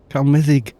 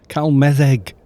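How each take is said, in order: First: The last syllable has an 'i' vowel. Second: The last syllable has an 'e' vowel. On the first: The speaker calls it right. "More of an I say" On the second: The speaker calls it wrong. "I ended up pronouncing it wrong my bloody self"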